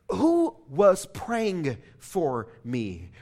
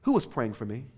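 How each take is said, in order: First: Slow, deliberate question, each word pressed; cross-examining attorney. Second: Said in the usual way. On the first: Retold or imitated. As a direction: interrogate him like a lawyer in court. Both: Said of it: "like that of a cross-examining attorney".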